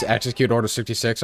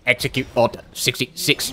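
First: Said in the usual way. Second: Commanding villain quote. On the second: Pretend. Gamer ordering an attack on King Arthur, mock-sinister. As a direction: give the order softly, word by word.

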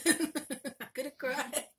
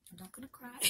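First: Louder, slow, half-laughing through the tears. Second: Hushed, choked-up whisper of a promise; fighting the tears, voice dropping away; holding back tears. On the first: Moved by the gift, laughing through tears. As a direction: laugh it off while welling up. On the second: Touched by a stranger's gift, softly choking up. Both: Real, not acted.

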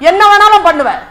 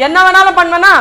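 First: Loud, high, with பண்ணுவேன் falling; பண்ணுவேன் as a booming, final statement; emphatic assertion. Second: Loud, high, with பண்ணுவேனா rising; பண்ணுவேனா as a booming, rising challenge; emphatic question. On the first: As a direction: declare வேணாலும் பண்ணுவேன் forcefully, pitch dropping at the end. Krishna asserts he can do anything. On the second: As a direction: ask வேணாலும் பண்ணுவேனா forcefully, pitch up at the end. Krishna quizzes Arjuna on his power. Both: Acted.

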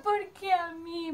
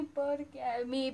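First: Slow, high, tearful plea; imitating crying. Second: Slow, sinking, softer tearful repeat; imitating crying. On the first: Telling her friend the bad news hit hard, crying pitched up. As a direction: stretch it out like a sob, pitched up. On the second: Repeating her lament to her friend, fading crying. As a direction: let the sob fade as it drags. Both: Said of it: "Me largué a llorar a mocote".

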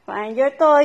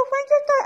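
First: Said in the usual way. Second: "Find your toy" said much higher, eager pet-talk. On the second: Real, not acted. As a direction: lift "Find your toy" up high to excite the dog. Urging dog to find toy.

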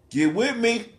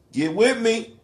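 Both takes have the same delivery.

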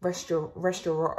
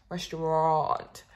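First: Restaurant with a rolled Finnish R; Finnish-accented attempt. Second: Restaurant slowed right down, syllable by syllable; slow careful restaurant. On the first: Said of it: "The Finnish accent makes an appearance". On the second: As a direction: work through restaurant slowly to get it right. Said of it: "Oh, it's the second part". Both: Shown as a demonstration.

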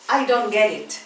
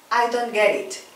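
Both takes have the same delivery.

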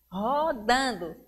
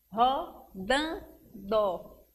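First: Said in the usual way. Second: "rodando" very slowly as ro-dan-do; three separate beats on "rodando", gaps between; syllable by syllable. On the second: Shown as a demonstration. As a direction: count out "rodando" one syllable at a time. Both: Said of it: "quer saber o número de sílabas".

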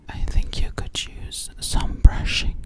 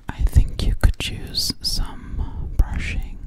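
No difference in how they are said.

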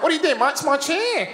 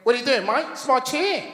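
First: High-pitched mock Australian complaint; Australian accent. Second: Higher-pitched Australian impression; Australian accent. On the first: Australian guy claims his chair, exaggerated Australian accent. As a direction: put on a higher, indignant Australian voice. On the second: Australian guy challenges comedian over a chair, mock Australian accent. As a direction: imitate an indignant Australian. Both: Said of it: "that's how they sound".

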